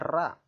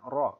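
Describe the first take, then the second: First: The r is light, with lips not pushed forward. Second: The r is heavy, with lips pushed forward. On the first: The speaker calls it wrong. "jadi jangan membacanya ra" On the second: The speaker calls it right. "huruf ra dibaca tebal dengan bibir sedikit maju"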